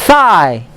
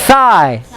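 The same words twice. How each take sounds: No difference in how they are said.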